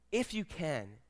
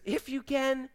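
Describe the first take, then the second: First: Soft, hushed desperation, falling away; hushed begging; desperate plea. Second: High, soft questioning echo; incredulous echo. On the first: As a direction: plead quietly, as a desperate father. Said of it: "You hear the desperation in his voice?". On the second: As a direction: throw the words back in higher-pitched disbelief. Jesus throwing the father's words back. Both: Acted.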